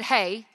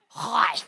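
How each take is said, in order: First: The vowel sounds like the one in 'day'. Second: The vowel sounds like the one in 'my'. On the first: The speaker calls it wrong. "It's not said hey" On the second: The speaker calls it right. "It's hi"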